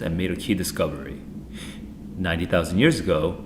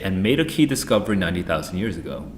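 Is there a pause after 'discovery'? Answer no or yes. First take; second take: yes; no. First: There is a pause after 'discovery'. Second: There is no pause after 'discovery'. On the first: The time phrase describes the following clause. The speaker calls it right. "you noticed how I paused after discovery?" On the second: The discovery itself happened ninety thousand years ago. The speaker calls it wrong. "It would be crazy to say"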